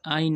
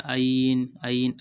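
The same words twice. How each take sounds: First: आइन said like a plain alif vowel; the sound not to copy; wrong ain. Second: आइन pushed louder from the throat; throaty ain. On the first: Teacher demos the wrong आइन to avoid. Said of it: "आइन नहीं कहना". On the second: Teacher demos the right आइन after the wrong one. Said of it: "गला में से निकलेगी दोस्तों". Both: Shown as a demonstration.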